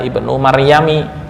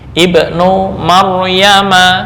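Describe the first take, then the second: First: The name ends with an 'i' vowel. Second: The name ends with an 'a' vowel. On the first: The speaker calls it wrong. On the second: The speaker calls it right.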